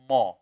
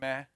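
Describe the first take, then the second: First: The ma is heavy, with the tongue raised. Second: The ma is light, with the tongue relaxed. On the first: The speaker calls it wrong. "you're saying it with isti'la" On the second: The speaker calls it right. "it should be relaxed down"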